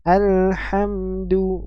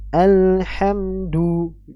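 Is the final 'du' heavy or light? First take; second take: light; heavy. First: The final du sounds thin and light. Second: The final du sounds thick and heavy. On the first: The speaker calls it right. "Alhamdu bukan" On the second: The speaker calls it wrong. "bukan alhamdu"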